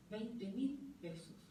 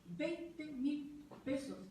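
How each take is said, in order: First: Veinte mil pesos drawn out slowly, word by word; slow emphasis. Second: Veinte mil pesos stretched even slower, Veinte lifted; slower emphasis. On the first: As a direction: let the small sum sink in slowly. Stressing the low alimony. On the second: Repeating the alimony sum to the audience, very slow. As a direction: repeat it slowly so nobody misses it. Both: Real, not acted.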